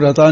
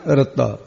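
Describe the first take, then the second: First: ਰਤਾ with a single light t, no doubling; the mistaken reading ਰਤਾ, t not held; wrong short form. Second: ਰੱਤਾ with the t held and doubled, falling; correct doubled t. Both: Shown as a demonstration. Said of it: "ਇਹਨੂੰ ਰਤਾ ਨਹੀਂ ਕਹਿਣਾ".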